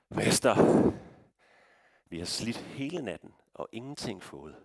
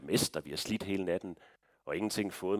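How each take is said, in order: First: It is said in an irritated, exasperated tone. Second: It is read in a plain, neutral tone. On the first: The speaker doubts the order makes sense. "Det kunne også godt være, det lød sådan her" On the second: The words are simply reported. "Vi læser det bare sådan her"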